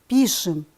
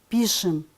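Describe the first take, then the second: No difference in how they are said.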